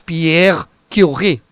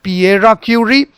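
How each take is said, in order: First: The R sound is soft and light. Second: The R sound is hard and strong. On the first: The speaker calls it right. "should be uh, a little bit softer one" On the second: The speaker calls it wrong. "it is not Pierre Curie"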